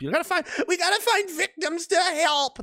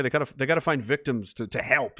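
First: Mock do-gooder. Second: Said in the usual way. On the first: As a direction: pitch it way up and drag it out piously. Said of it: "That's the left all the time".

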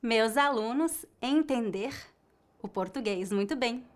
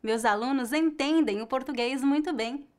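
First: "entender" in the infinitive with a final R; the error take: "entender"; wrong form. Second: "entendem" with a faint nasal ending; the answer take: "entendem"; correct form. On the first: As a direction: say "entender" as the mistake. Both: Shown as a demonstration.

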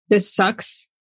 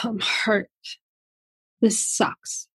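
First: Said in the usual way. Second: Near-whisper, the hurt part speaking softly; hurt inner voice, hushed. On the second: Retold or imitated. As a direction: breathe "This sucks." out almost voiceless, hurting. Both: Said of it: "part that's screaming and yelling and feeling like".

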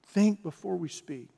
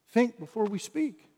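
First: "Think before we speak." stated firmly, falling at the end; falling statement. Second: "think before we speak?" asked with a rising lift on think; rising question. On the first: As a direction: settle "Think before we speak." as a firm closing rule. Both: Shown as a demonstration.

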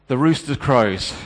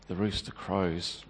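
First: The rooster crows said firm, loud and slow; stark announcement. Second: The rooster crows said soft, low and slow; broken whisper-soft echo. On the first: Peter hearing the rooster, stark and loud. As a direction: land "The rooster crows" as a hard verdict. Rooster marks his betrayal. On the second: Peter repeating the omen to himself, hushed. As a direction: let "the rooster crows" sink away in despair. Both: Acted.

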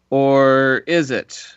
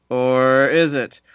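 No difference in how they are said.

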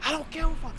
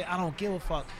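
First: High, strained mock scream, held back in volume; pitched way up, a contained imitation yell; retold scream. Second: Said in the usual way. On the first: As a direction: imitate screaming at yourself in the mirror. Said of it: "Just screaming in the mirror". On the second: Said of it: "like, say".

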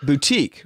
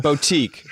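First: Boutique said as poo-teek, with a p sound and oo; mispronounced boutique. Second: Boutique said as boh-teek with an oh vowel; Boutique, now with the oh sound of the first syllable; corrected boutique. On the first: Real, not acted. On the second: Shown as a demonstration. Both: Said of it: "your pronunciation of the word boutique".

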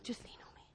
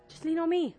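First: Hushed, almost inaudible whisper; whispered reassurance. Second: Said in the usual way. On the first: Acted. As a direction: whisper it as a gentle invitation. Voicing Jesus, first take whispered.

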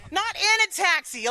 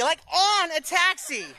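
First: Not "in" a taxi, stressing "in" as the wrong word. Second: "on" a taxi, with "on" drawn out and slow; stress on on. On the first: Correcting a laughing listener, stressing "in". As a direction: lean on "in" to reject it. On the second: Correcting a laughing listener, slow stress on "on". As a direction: hit "on", laughing. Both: Shown as a demonstration. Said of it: "On, on a taxi?".

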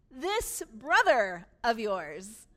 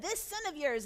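First: "This brother of yours" slow and much louder, leaning on "brother"; stress on brother. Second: Said in the usual way. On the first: Shown as a demonstration. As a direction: draw out "brother", loud and deliberate. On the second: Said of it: "where the son had said".

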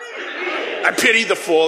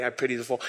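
First: Slow, laughing tough-guy shout; Mister T with attitude. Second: Said in the usual way. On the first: Shown as a demonstration. Preacher doing Mister T for the congregation, slow laughing shout. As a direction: lean in and sell the catchphrase with swagger. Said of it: "could we say it with some attitude?". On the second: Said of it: "That's what he used to say".

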